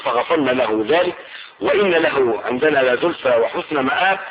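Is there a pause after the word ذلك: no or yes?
yes. There is a clear pause after the word ذلك. "وتقرأ بالوسط والوقف"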